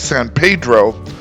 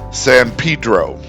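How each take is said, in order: First: The name is said with a Spanish-style pronunciation. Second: The name is said with an English-style pronunciation. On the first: This is how the spelling suggests it is said. The speaker calls it wrong. "it looks like it should be" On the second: This is how local residents say it. The speaker calls it right. "the locals will tell you that it is"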